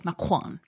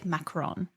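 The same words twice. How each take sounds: First: The word has a throaty French r sound. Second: The word has a plain English r sound. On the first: "If you want to be very authentic about it" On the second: "we Pittsburghers should say macaron"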